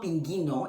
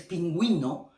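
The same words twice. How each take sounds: First: The u after the g is silent. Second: The u after the g is sounded. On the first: The speaker calls it wrong. "it's not pinguino" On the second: The speaker calls it right. "it's pinguino"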